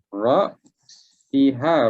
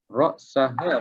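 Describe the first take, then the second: First: The vowel after the s is i. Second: The vowel after the s is a. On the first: "Ra'siha boleh baca" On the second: "Ra'saha pun boleh baca"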